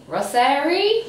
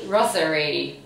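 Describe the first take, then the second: First: Rosary? said as "ROSS-air-ee", rising, unsure; Rosary? as a hesitant trial read; unsure pronunciation. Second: Rosary. said as "ROZE-uh-ree", falling and settled; settled pronunciation. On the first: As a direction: try Rosary? with a rising, questioning guess. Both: Shown as a demonstration. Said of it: "I'm probably not saying that right".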